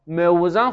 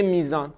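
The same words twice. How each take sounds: First: "موزان" with the vav sounded before the z; unchanged heavy form. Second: "میزان" with a long ee replacing the vav; easy changed form. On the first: Teacher shows what Arabs would have to say, "موزان" with vav sounded. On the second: Teacher shows the easier Arabic form, "میزان" with long ee. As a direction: glide through "میزان" with a long ee. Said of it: "خیلی راحت". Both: Shown as a demonstration.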